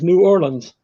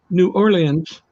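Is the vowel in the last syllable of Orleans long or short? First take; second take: short; long. First: The last syllable has a short vowel. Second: The last syllable has a long vowel. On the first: The speaker calls it right. "Short I. ... Like a lens" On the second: The speaker calls it wrong. "or as my dad says"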